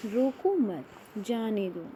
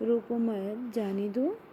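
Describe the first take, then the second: First: रोको मत together, falling on मत, then जाने दो; "रोको मत" as one firm phrase, falling close; pause after मत. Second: रोको मत run into जाने दो, rising on दो; "रोको मत, जाने दो" linked, with rising ends; contrasting phrasing. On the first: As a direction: break after मत, let जाने दो fall. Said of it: "विराम चिन्हों का प्रभाव". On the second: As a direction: keep मत up, lift the end of दो. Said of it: "दोनों का अर्थ एक दूसरे के विपरीत". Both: Shown as a demonstration.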